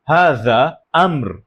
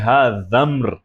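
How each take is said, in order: First: A glottal stop separates the two words. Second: The two words run together without a glottal stop. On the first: The speaker calls it right. "इधर भी मैं मुकम्मल हमज़ा बोल रहा हूँ" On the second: The speaker calls it wrong. "मैं ये नहीं कह रहा कि"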